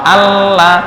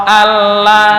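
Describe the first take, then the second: Both takes have the same delivery.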